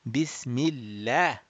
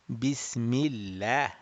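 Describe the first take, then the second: First: The L sound is light and thin. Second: The same.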